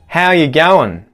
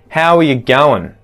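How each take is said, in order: First: The word are is left out. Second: Going is shortened to goin'. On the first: "remove that R from the phrase" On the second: "Now let's contract going"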